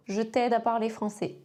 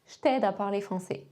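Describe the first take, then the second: First: Said in the usual way. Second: "Je t'aide" said zh-t'aide, no E; J glued to "t'aide"; dropped E in "je"; contracted je. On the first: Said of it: "Un dernier exemple". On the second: Shown as a demonstration. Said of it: "Une idée?".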